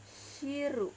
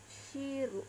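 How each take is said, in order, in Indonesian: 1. Diucapkan dengan gaya Jepang, berakhiran ru. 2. Diucapkan dengan gaya Jepang, berakhiran ru.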